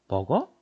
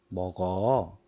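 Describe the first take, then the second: First: It is said as a rising question. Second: It is said as a calm permission. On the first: It asks whether someone eats. "의문형도 되고" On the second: It allows someone to eat. "허락하는 표현도 되죠"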